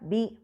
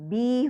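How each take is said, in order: First: The vowel is short. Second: The vowel is drawn out long. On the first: "बा कसरा बी" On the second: "हर्फ मद के साथ बी हो जाएगा"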